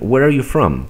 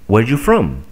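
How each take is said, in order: First: Every word is pronounced fully and separately. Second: The words run together, reduced to 'you'. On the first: "Así es como esperamos que lo pronuncien o nos digan" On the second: "Todo esto se ve reducido a decir you"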